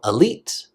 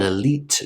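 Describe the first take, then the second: First: The final T is cut off. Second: The final T is fully pronounced. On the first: "it's going to get cut off like that" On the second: "If you're speaking very slowly, you could pronounce it"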